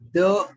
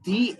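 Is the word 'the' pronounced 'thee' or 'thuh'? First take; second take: thuh; thee. First: The vowel is a short uh sound. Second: The vowel is a long ee sound.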